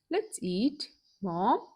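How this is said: There is a short pause after eat. It invites mother to eat together. "we'll place a comma after let's eat and read a sentence again"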